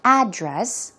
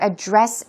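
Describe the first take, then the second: First: The stress is on the first syllable. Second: The stress is on the second syllable. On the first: It names the location of a place. "when the stress is put on the first syllable" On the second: It means to deal with or discuss. "the stress goes on the second syllable"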